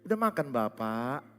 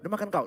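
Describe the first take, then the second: First: It is said in a gentle, lilting, friendly tone. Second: It is said in a flat, harsh, blunt tone.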